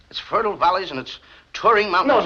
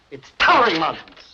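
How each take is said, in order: First: "towering" said like "Turing"; slurred towering. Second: "towering" with a full "tow-er-ing"; correct towering. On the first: Pupil reads to the teacher, "towering" slurred to "Turing". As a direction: drop the "ow" in "towering". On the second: Teacher corrects the pupil, carefully spelled-out "towering". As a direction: open up every syllable of "towering". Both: Shown as a demonstration. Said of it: "Not Turing Mountains".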